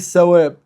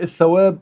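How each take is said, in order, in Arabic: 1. الكلمة فيها صوت 's'. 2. الكلمة فيها صوت 'th'.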